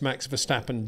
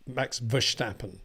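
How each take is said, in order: First: The s in Verstappen sounds like plain s. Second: The s in Verstappen sounds like sh. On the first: This is the version the questioner insists on. "I know you're saying it's" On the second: This is how some Dutch speakers say it. "Dutch friends who do say Max Verstappen"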